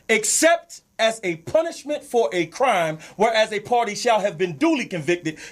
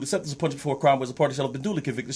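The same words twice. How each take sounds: First: It is read slowly with clear pauses. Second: It is read quickly without pauses. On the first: The hidden exception becomes clear. "let me slow it down so everybody can get it" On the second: The meaning is easy to miss. "when you say it fast like that"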